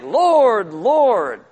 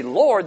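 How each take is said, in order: First: Loud, drawn-out fervent cry; impassioned, high-rising first cry, falling away; emotional engagement. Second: Said in the usual way. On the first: Acted. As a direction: call out passionately, stretching each word. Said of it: "they have emotional engagement". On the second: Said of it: "they don't just say".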